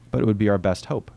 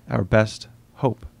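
First: Said in the usual way. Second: Slow echo. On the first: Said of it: "the physicist said". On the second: A narrator's reading. Narrator echoing the physicist to himself, slow and musing. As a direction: slowly repeat "Our best hope." turning the phrase over. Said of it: "The expression didn't awaken anything".

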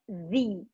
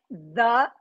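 First: "the" said as "thee" before a vowel; the right "the" before a vowel, like "thee"; correct pronunciation. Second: "the" said as "duh" with a short dull vowel, slowed; the mistaken "the" before a vowel, like "duh"; wrong pronunciation. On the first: Teacher showing students the right "the" before vowels. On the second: Teacher showing students the wrong "the" before vowels. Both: Shown as a demonstration. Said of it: "a gente vai falar the".

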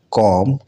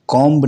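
First: कॉम्ब said kom, no b; कॉम्ब ending on m; silent b. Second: कॉम्ब said komb, the b sounded; कॉम्ब with a final b; wrong b sounded. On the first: Teacher shows कॉम्ब said kom. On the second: Teacher shows the wrong कॉम्ब with a b. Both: Shown as a demonstration. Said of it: "कॉम्ब नहीं पढ़ा जाना चाहिए".

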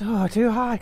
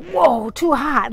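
First: Said in the usual way. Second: "too hot" loud and drawn out, very slow; overwhelmed TOO HOT. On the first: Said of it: "like, not just". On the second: Shown as a demonstration. Showing it was more than good looks, "too hot" drawn out loud. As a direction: stretch "too hot" out forcefully, knocked back by it. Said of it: "like, not just, "Oh, too hot," 'cause he's good looking".

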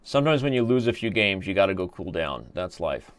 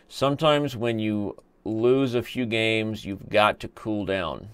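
First: Said in the usual way. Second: Drawn-out, measured repeat; slow and deliberate. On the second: Acted. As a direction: spell it out slowly. Repeats his own line slowly, deliberately.

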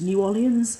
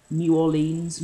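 First: New Orleans as "new or-LEE-ənz", questioning; New Orleans ending "-lee-ənz". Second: New Orleans as "new or-LEENS"; New Orleans ending "-leens". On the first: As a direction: say "Orleans" in three syllables, unsure. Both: Shown as a demonstration. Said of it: "I don't know, I've never actually spoke".

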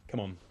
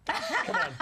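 First: Said in the usual way. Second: High, laughing mock squeal; teasing squeal. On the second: Real, not acted. Host teases the actress about the mustache, squealing. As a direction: push her playfully with a high-pitched come on.

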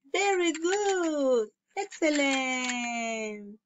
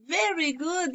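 First: Slow drawn-out praise. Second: Said in the usual way. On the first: Shown as a demonstration. Teacher praising young students.

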